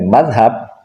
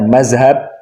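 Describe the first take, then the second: First: The middle consonant is a soft 'th' sound. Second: The middle consonant is a 'z' sound. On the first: The speaker belongs to the pesantren tradition. "Kalau fasih mengucapkannya dengan madhab, nah itu santri" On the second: The speaker is not from the pesantren tradition. "Tapi kalau mengucapkannya mazhab, itu bukan santri"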